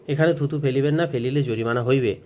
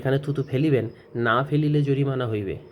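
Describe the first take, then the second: First: The pause comes right after 'না'. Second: The pause comes right before 'না'.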